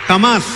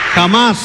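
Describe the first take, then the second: No difference in how they are said.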